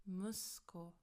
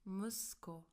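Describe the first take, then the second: The two takes are said the same way.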